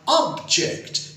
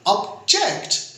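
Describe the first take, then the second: First: The stress is on the first syllable. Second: The stress is on the second syllable.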